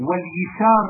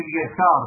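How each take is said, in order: First: واليسار with an i after the y, "yisar"; kasra variant. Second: Said in the usual way. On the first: Shown as a demonstration. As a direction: give واليسار a short i in its first syllable. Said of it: "بالكسر لغة في اليسار". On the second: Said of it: "لغة في اليسار".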